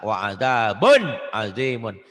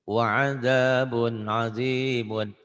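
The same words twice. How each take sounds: First: It is read sharply and forcefully, like anger. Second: It is read calmly without a sharp jolt. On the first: It is only a practice exaggeration. "Latihannya boleh disentak" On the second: This is how it is read in actual recitation. "Tapi baca Quran nggak boleh begitu"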